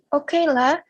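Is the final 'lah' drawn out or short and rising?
short rising. The final lah is short with rising pitch. The speaker agrees to something. "a short increasing pitch "lah""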